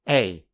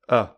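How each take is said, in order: First: The vowel is full and clearly pronounced. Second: The vowel is reduced to a weak schwa. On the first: "I'll firstly say the strong form" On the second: "then the weak form"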